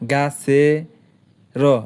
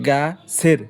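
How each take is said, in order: First: The last syllable is broken into separate sounds. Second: The last syllable is said together as one unit. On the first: The speaker calls it wrong. "এইভাবে উচ্চারণ করা যায় না" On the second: The speaker calls it right. "উচ্চারণ করতে হবে গা সের একসাথে"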